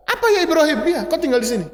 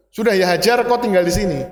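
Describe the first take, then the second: First: A joking, higher take on a casual answer; playfully imitating a nonchalant reply; mock casual reply. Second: Said in the usual way. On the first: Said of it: "Hajar nggak bicara seperti itu". (jawaban santai bercanda, nada lebih tinggi)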